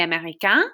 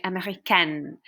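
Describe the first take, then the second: First: Américain ending in a nasal vowel, no N sounded; masculine pronunciation. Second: Américaine ending in a held, sounded N; feminine pronunciation. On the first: French teacher shows what boys say, américain with silent N. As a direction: leave the final N of américain silent. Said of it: "So for boys, boys say". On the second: French teacher shows what girls say, américaine with pronounced N. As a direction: finish américaine on a clear "-kenn". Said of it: "makes you pronounce that letter". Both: Shown as a demonstration.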